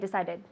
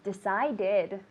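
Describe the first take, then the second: First: The word is rushed, dropping the final syllable. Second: The word is said with all three syllables. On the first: The speaker calls it wrong. "It's not fast. It's an extra syllable. So don't say decided" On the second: The speaker calls it right. "It's decided. Okay, it's an extra syllable"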